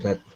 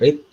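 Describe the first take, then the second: First: The vowel is short, like 'red'. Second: The vowel is long, like 'reed'. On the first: It is the past participle of the verb. "kemudian read" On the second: It is the present form of the verb. "Pertama read"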